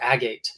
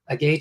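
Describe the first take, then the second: First: It is said in a more posh way. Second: It is said in a plain, ordinary way.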